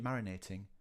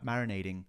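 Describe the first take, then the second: First: The consonant before -ing is a clear t. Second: The consonant before -ing sounds like a d. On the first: This is the correct form. The speaker calls it right. "but it's actually marinating" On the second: This is how Americans say it. The speaker calls it wrong. "they've heard Americans say"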